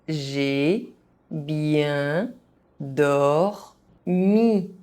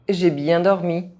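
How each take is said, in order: First: It is said very slowly, syllable by syllable. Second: It is said fast, with some sounds dropped. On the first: Each syllable can be followed. "very slowly so that you understand how each syllable is pronounced" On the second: This is how native speakers say it. "fast, as a native speaker would do"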